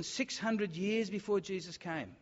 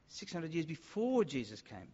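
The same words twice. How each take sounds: First: "six hundred" picked out, slowly; stress on HUNDRED. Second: "before" stretched out as the key word; stress on BEFORE. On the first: Preacher dating the prophecy for listeners, stress on "hundred". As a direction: lean on "hundred" to mark the span of years. Preacher repeats phrase, shifting the emphasis. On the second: Preacher repeating the date for listeners, stress on "before". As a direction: lean hard on "before" in the repeat. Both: Real, not acted.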